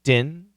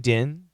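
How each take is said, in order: First: The word is reduced, dropping the middle and final consonants. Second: The word is reduced, dropping the middle and final consonants.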